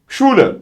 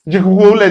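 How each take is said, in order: First: The word begins with a single sh sound. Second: The first letters are sounded as separate sounds. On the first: The speaker calls it right. "Ş sesi olur" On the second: The speaker calls it wrong. "Cihule değil de"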